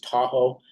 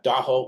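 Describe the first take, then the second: First: It is said the usual outsider way. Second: It is said the local people's own way. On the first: The speaker calls it wrong. "mispronounced as" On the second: The speaker calls it right. "the proper way that we say"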